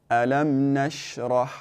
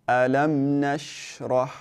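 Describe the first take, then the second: Both takes have the same delivery.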